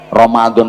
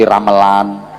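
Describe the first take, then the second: First: The middle consonant is a d sound. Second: The middle consonant is an l sound. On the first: This is the Arabic form of the word. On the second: This is how old people used to say it.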